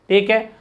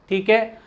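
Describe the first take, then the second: The two takes are said the same way.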